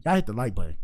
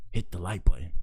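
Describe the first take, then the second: First: Said in the usual way. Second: Whispered plea to hit the like button. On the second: Shown as a demonstration. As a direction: drop to a breathy whisper for the ask. Repeating the like request.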